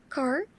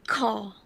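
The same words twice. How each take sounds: First: The final r sound is clearly pronounced. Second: The final r sound is dropped entirely. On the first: "in general American" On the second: "it will become car for general British"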